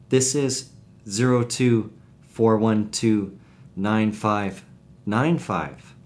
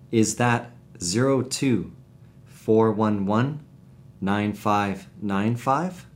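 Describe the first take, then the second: First: Slow digits in groups, last "five" falling; correcting number statement. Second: Slow digits in groups, rising on the last "five"; questioning number check. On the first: Answerer corrects a wrong number, slow falling statement. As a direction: state "zero two, four one two" slowly and end on a fall. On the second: Caller checks a phone number, slow rising question. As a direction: read "zero two, four one one" slowly, ending as a question. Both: Shown as a demonstration. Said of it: "Listen how the following sentences are spoken".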